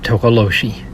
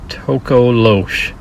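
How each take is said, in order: First: The name ends with an added final vowel sound. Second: The name ends on the final consonant sound. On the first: The speaker calls it wrong. "I guess I said it wrong" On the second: The speaker calls it right. "it says pronounced Tokolosh"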